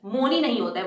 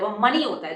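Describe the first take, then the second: First: मोनी said with a long o, like "mo-nee"; मोनी pronounced wrongly as mo-nee; wrong pronunciation. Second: मनी said with a short a, like "muh-nee"; मनी pronounced correctly as muh-nee; right pronunciation. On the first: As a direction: say मोनी with an o, not an a. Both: Shown as a demonstration.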